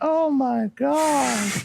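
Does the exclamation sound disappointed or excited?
disappointed. It is said with a disappointed, dismayed tone. The result was a letdown. "when we saw like the shipyard, we are like"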